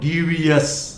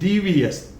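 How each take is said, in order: First: The ending sounds like 'yes'. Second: The ending sounds like 'us'. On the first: The speaker calls it wrong. "not yes, not devious" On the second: The speaker calls it right. "It is devious"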